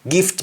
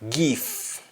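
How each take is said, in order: First: The final T is sounded. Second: The final T is dropped.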